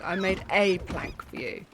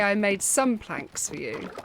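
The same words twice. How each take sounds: First: Said in the usual way. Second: Mocking "some planks" with a fall on "some"; mock quote of his claim. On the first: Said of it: "He should have said". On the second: Player mocking the villager's boast, leaning on "some". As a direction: stress on "some" in "I made some planks for you", falling. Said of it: "He did say".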